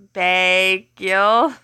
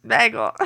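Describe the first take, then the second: First: "Bagel" split into two long syllables, bay... gull; drawn-out pronunciation. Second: Said in the usual way. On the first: Shown as a demonstration. Streamer wondering how he pronounces it, "Bagel" slowly split in two. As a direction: stretch each half of "Bagel", rising at the end. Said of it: "I wanna know how he pronounces it". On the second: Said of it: "how he pronounces it".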